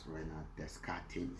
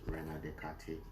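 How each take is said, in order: First: The s and t in Descartes are sounded. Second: The s and t in Descartes are silent.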